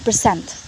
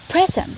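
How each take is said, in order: First: The stress is on the second syllable. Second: The stress is on the first syllable. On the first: It is used as a verb. "the stress will be found in the second syllable" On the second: It is used as a noun. "the stress will be found in the first syllable"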